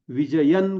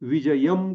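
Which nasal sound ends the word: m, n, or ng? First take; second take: n; m. First: The word ends with an n sound. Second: The word ends with an m sound. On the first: "विजयन करता येईल" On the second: "विजयम करता येईल"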